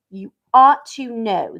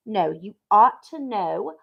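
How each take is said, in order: First: "ought" pushed firmly in "You ought to know"; firm slow reproach; stress on ought. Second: "ought" rising in "No, you ought to know"; slow insistent retake; corrected take. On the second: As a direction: correct yourself and stress "ought". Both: Shown as a demonstration.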